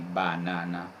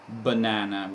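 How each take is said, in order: First: The unstressed vowels are said full and clear. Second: The unstressed vowels are reduced and weak. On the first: The speaker calls it wrong. "we don't say banana" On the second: The speaker calls it right. "we say banana"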